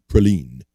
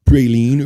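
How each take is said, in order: First: Praline said as pruh-LEEN; short-A pronunciation. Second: Praline said as PRAY-leen; long-A pronunciation. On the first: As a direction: reduce the first vowel, lean on LEEN in praline. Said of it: "or do you say praline". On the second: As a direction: open praline with a full, stressed pray. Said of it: "Do you say praline or". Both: Shown as a demonstration.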